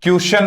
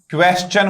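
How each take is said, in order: First: क्वेश्चन said with a shun ending; the wrong way, क्वेश्चन as kwe-shun. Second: क्वेश्चन ending in chun, t͡ʃən; क्वेश्चन with a firm ch; right chun ending. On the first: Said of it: "क्वेश्चन नहीं होगा". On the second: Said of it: "क्वेश्चन होगा". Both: Shown as a demonstration.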